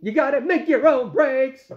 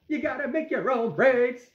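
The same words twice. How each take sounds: First: Loud, raised-pitch rock star quote; big, high-pitched mock rocker proclamation. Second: Lightly voiced rock star quote, pitched up; higher, contained mock rocker proclamation. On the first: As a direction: belt it out like a slogan. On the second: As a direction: repeat the slogan higher, without shouting. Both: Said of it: "like the great [name] says".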